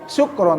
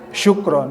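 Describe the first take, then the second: First: The word begins with a plain 's' sound. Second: The word begins with a broad 'sh' sound. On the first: The speaker calls it wrong. "bukan syukron" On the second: The speaker calls it right. "tapi syukron"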